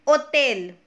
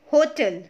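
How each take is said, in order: First: "hôtel" said the French way, silent h; French pronunciation. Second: Said in the usual way. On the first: Shown as a demonstration. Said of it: "Next one is". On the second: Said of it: "which means".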